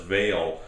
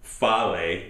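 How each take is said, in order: First: The word begins with a v sound. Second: The word begins with an f sound. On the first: This is how the name is probably meant to be said. "I suspect that it's pronounced pronounced as" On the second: This is how a German reader would say it. "If it were pronounced by a German person reading reading these letters, it might be pronounced as"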